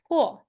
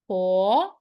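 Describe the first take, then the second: First: It is said with the fourth tone. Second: It is said with the second tone. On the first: "Last tone" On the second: "Second tone"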